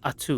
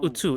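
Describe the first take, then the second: First: The name begins with an 'ah' sound. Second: The name begins with an 'oo' sound. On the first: The speaker calls it right. "it's Atu. I've been saying it wrong the whole time" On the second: The speaker calls it wrong. "No, it's not Utu"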